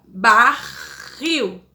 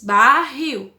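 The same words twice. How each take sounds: First: Barril stretched slowly into two separate beats; split into syllables. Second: Said in the usual way. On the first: Shown as a demonstration. Teacher to her class, showing the two syllables by ear. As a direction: sound out barril in two parts. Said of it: "a gente tem dois sons de sílaba". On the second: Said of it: "a gente tem o R duas vezes".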